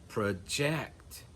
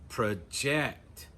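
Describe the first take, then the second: The two takes are said the same way.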